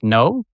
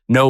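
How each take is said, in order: First: It is said with a rising pitch. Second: It is said firmly with a falling pitch. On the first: "no with an upward inflection" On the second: "not no with an exclamation point"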